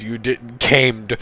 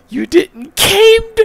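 First: Said in the usual way. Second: Very high, loud, slow echo; incredulous repeat. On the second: Real, not acted. Reader baffled by the bad grammar, incredulous shriek. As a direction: shriek the question in disbelief at CAMED.

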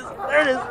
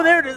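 First: There it is said through laughter; laughing. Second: Excited cheer. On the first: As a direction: laugh while saying it. Laughing while watching the chug. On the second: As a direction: shout it out in delight. Cheering a chug success. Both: Real, not acted.

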